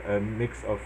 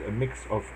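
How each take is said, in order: Both takes have the same delivery.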